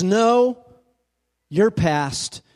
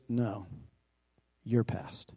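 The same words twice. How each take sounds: First: Preacher hammering "No, your past" to the congregation; emphatic preaching. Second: "No, your past" very soft and much lower, gentle and distant; hushed, low, gentle spirit saying "your past". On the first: Shown as a demonstration. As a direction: hit "No" hard, then land "your past". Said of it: "You see, the words". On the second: Acted. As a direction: murmur "No, your past" like a ghost far away. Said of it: "The voice was soft and gentle, singularly low".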